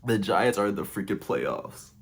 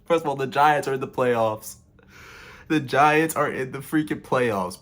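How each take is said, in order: First: Emotional, subdued. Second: Choked-up excitement, voice lifted; emotional. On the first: Fan repeating the playoff news softly, overcome with emotion. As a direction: let it sink in, moved. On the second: Fan telling viewers his team made the playoffs, emotional and raised. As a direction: near tears with pride over the news. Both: Real, not acted. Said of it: "has me kinda emotional".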